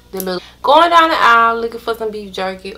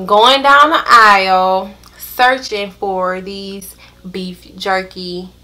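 First: Fast, quicker retake; fast repeat. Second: Slow, drawn-out search; slow deliberate retelling. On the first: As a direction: rush through it again. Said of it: "repeated faster". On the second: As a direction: drag out the hunt. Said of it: "slow searching retelling". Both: Retold or imitated.

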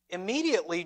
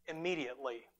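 First: Said in the usual way. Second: Quiet weighty Immediately; soft, low emphasis. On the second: Shown as a demonstration. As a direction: drop to a hushed immediately.

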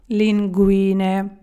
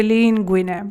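First: «лінгвіне» повільно, з наголосом на «ві»; протягни друге «і» в «лінгвіне»; правильний наголос. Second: «лінгвіне» з наголосом на «лін»; вдар на перше «і» в «лінгвіне»; помилковий наголос. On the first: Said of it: "пасту правильно сказати". (повільне «лінгвіне» з наголосом посередині) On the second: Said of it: "Хоча хочеться говорити". («лінгвіне» з наголосом на початку) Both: Shown as a demonstration.

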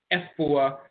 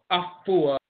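First: "Efua" with eh first, eh-FOO-ah; Fanti pronunciation. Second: "Afua" with ah first, ah-FOO-ah; Asante pronunciation. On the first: Lecturer recapping the dialects, "Efua" as eh-FOO-ah. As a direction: start "Efua" on eh. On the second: Lecturer recapping the dialects, "Afua" as ah-FOO-ah. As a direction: open "Afua" on ah. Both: Shown as a demonstration.

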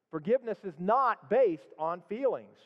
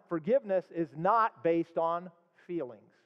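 First: Said in the usual way. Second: Slow, weighty, stress on not; preacher drives the point home slowly; slow emphasis. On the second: Shown as a demonstration. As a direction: spell out each word: forgiveness is not based on feelings.

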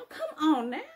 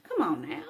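First: Playful high repeat. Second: Low, chuckling come on now with a falling tune; laughing it off. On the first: Confessing to camera, playfully egging herself on, high and rising. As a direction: come on now jumps up high and rises at the end. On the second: Confessing to camera, laughing it off after talking smack. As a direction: laugh through the words come on now, dropping at the end. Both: Acted.

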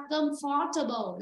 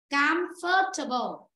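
First: Comfortable misread as "cơm-pho-tơ-bồ"; wrong pronunciation. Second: Comfortable slowly as "cam-phờ-tơ-bồ", first vowel A; correct pronunciation. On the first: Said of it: "sẽ đọc là comfortable là sai". (comfortable đọc sai thành "cơm pho tơ bồ") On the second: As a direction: stress "cam" in Comfortable, drawn out, then fall. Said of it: "Âm A". (Comfortable đọc chậm, âm A, nhấn âm đầu) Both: Shown as a demonstration.

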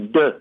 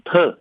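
First: เดอ with a voiced d; ดอเด็ก sound. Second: เทอ with an aspirated t; ทอทหาร sound. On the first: Lecturer shows the other reading, เดอ with voiced d. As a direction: start เดอ on the unpuffed ดอเด็ก consonant. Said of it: "คือเสียงทอทหารกับเสียงดอเด็ก". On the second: Lecturer shows one possible reading, เทอ with aspirated t. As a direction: start เทอ on the puffed ทอทหาร consonant. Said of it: "ออกเสียงได้ทั้งเสียงเทอ". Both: Shown as a demonstration.

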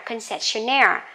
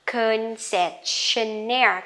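First: Concessionaire at natural pace, stress on -naire; normal speed word. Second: Concessionaire said slowly, stress on -naire; slow model word. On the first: (đọc Concessionaire tốc độ thường) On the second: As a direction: stretch Concessionaire out. (đọc chậm Concessionaire) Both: Shown as a demonstration. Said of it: "Cứ nhấn vào chính cái âm này".

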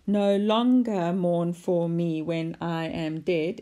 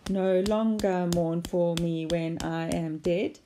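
First: Slow, with weight on every second syllable of "No longer mourn for me when I am dead"; iambic beat. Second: Slow, measured beat on each syllable of "No longer mourn for me when I am dead"; clapped-out syllables. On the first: Teacher demonstrating iambic pentameter, "No longer mourn for me when I am dead" slowly scanned in rising pairs. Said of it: "And then the iambic pentameter". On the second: Teacher clapping out the line, "No longer mourn for me when I am dead" in slow, even syllables. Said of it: "If you clap that out". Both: Shown as a demonstration.

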